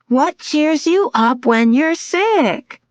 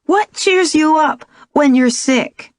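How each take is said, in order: First: Put-on sung, high, slow sing-song little girl; sung, lilt the riddle like a nursery rhyme. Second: Put-on child asking a riddle; little girl voice. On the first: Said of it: "She said in a sing-song voice". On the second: Young daughter voiced by narrator. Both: A narrator's reading.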